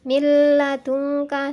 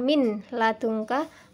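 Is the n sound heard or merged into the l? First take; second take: merged; heard. First: The n disappears, merging into a doubled l. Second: The n is pronounced clearly before the l. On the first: The speaker calls it right. "suara nunnya hilang" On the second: The speaker calls it wrong. "bukan min ladungka"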